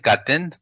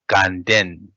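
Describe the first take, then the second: First: It has no nasal sound in the middle. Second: It has a nasal sound in the middle. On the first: "they also read as a gaten gaten" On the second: "more common is ganden with nasal"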